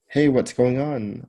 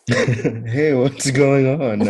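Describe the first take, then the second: First: It is said flatly, without much concern. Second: It is said with strong, exaggerated concern. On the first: The speaker calls it wrong. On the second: The speaker calls it right.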